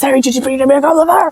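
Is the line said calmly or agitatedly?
agitatedly. The line is said agitatedly and loudly.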